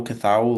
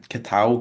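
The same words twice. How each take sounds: First: "Cathal" with a TH, questioning; tentative pronunciation. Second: "Catal" with a hard T, questioning; tentative pronunciation. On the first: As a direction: try "Cathal" with TH in place of T. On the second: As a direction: try "Catal" with a T sound, unsure. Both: Shown as a demonstration. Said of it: "I actually don't know, is it".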